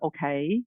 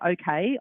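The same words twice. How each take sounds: First: Okay is said in an American accent. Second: Okay is said in a non-American accent. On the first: This is how she had to say it in the US. "I had to go okay" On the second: This is how she said it before moving. "when I would say okay"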